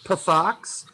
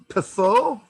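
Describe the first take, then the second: First: The final x sound is pronounced. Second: The final x sound is left silent. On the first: "it could be Pfox" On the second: "X could be silent"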